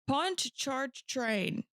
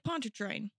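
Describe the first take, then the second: First: The syllables are said separately and carefully. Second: The syllables are run together into one quick unit.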